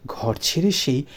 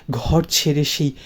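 The two takes are said the same way.

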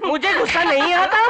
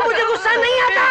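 First: Manic laugh. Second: High, loud yelled denial; furious shout. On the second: Man yelling at his friend that he isn't angry. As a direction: bellow it, losing control. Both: Acted.

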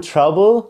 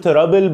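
First: "trouble" as "chrubble"; correct American TR. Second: "trouble" as "te-rabbel"; wrong TR pronunciation. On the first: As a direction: say "trouble" with sh between t and r. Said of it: "بقول trouble". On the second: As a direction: say "trouble" with a separate t and r. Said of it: "مش بقول trouble". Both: Shown as a demonstration.

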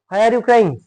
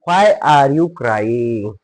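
First: Higher-pitched, quicker model question; conversational question. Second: Very drawn-out English words; slow model reading. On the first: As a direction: ask it as in real talk. Same question at speaking pace. (उंच स्वरात प्रश्न विचारणे) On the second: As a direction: stretch each word for learners. New sentence read out slowly first. (अगदी सावकाश इंग्रजी वाचन) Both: Shown as a demonstration.

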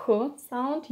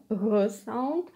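First: "h sound" with h as plain breath; voiceless h. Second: "g sound" with g as a voiced "huh". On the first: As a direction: exhale h without voice. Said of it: "This one is not". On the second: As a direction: put voice into the exhaled g, no hard stop. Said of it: "You use your voice when you're exhaling". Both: Shown as a demonstration.

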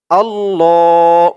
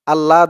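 First: আল্লাহ with a long held double l, slow and firm; doubled l. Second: Said in the usual way. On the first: Shown as a demonstration. Teacher correcting the Bangla spelling, holding the double l. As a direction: lean on the ll in আল্লাহ. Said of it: "এখানে আমাদের উচ্চারণ করতে হবে". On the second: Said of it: "বাংলায় দেওয়া আছে".

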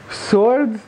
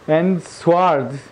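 First: "Sword" said as swored, w sounded; sword read with a w. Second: "sword" with a silent w, said sord. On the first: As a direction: pronounce the w in "Sword". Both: Shown as a demonstration. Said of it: "Just compare heart".

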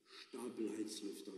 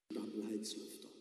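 First: Softer, drifting off in thought; softly repeated, miles away; dreamy repeat. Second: Said in the usual way. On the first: Acted. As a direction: murmur it back, lost in a daydream. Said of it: "wiederholte er versonnen".

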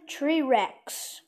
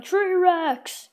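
First: Said in the usual way. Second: Kid's mock battle yell, higher; yelling the name. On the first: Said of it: "he's yelling". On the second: Kid voicing a toy hero on its portal, mock yell. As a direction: shout the hero's name like a war cry. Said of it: "and he's yelling".

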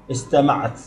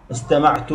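First: استمعت ending in a vowelless -at; feminine silent ending. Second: استمعت ending in a voiced -tu; first-person ending. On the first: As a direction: say استمعت as istamaʕat. Conjugation drill, feminine form. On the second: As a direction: say استمعت as istamaʕtu, silent ʕayn vowel. Conjugation drill, first-person form. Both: Shown as a demonstration.

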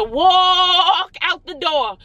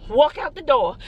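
First: "walk" stretched very long and louder; long, emphatic "walk" before "out the door"; drawn-out WALK. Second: Said in the usual way. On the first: Real, not acted. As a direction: hold the vowel of "walk", then finish the phrase. Repeats it, stretching the word walk.

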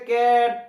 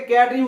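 First: ক্যাট stretched out slowly; ক্যাট pulled long instead of one quick beat; wrongly drawn-out word. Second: Said in the usual way. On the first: Shown as a demonstration. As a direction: drag out the vowel in ক্যাট. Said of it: "করে উচ্চারণ করতে হবে না". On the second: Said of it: "ক্যাটই উচ্চারণ করতে".

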